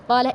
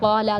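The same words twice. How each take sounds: First: The final vowel is kept short. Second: The final vowel is stretched long. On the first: One man said it. "कौला एक मर्द" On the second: Two men said it. "कौला दो मर्द"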